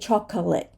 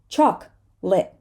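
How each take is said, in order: First: The middle vowel is pronounced as a separate syllable. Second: The middle vowel is dropped, giving two syllables. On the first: The speaker calls it wrong. "We're not going to say chocolate" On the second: The speaker calls it right. "We're going to say chocolate"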